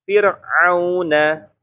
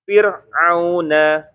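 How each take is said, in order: Both takes have the same delivery.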